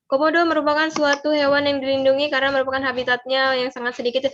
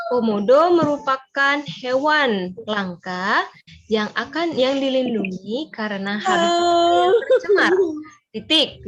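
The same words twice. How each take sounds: First: Runs on without a breath; no pauses. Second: Slow, with a pause at each break. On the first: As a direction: reads it all in one go, no pauses. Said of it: "nggak ada jedanya". (dibaca tanpa jeda sama sekali) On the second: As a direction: read it slowly, stopping at the punctuation. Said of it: "di situ mengatur jeda". (dibaca pelan dengan jeda di tanda baca) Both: Shown as a demonstration.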